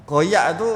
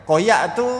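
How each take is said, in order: No difference in how they are said.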